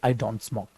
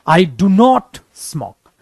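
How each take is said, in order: First: It is said lightly, with little stress. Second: It is said with strong emphasis.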